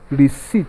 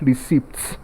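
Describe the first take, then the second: First: The word is said with no P sound. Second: The word is said with a P sound. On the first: The speaker calls it right. "Option A is pronounced as receipt" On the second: The speaker calls it wrong. "not receipt"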